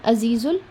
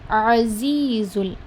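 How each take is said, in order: First: It begins with a plain vowel sound. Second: It begins with a tight throat sound. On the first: The speaker calls it wrong. "do not mix it with alif. It is not azizul" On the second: The speaker calls it right. "It is azizul"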